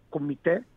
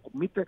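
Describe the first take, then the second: First: The stress falls on the last syllable. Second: The stress falls on the second syllable. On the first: The speaker calls it right. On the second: The speaker calls it wrong.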